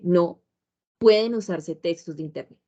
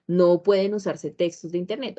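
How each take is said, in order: First: There is a pause after no. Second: It is said without a pause after no.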